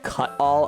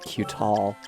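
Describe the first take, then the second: First: The name begins with a short 'cut' sound. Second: The name begins with a long 'cue' sound. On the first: The speaker calls it right. "this sword is called Cut-All" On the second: The speaker calls it wrong. "I thought it was like Q-Tall"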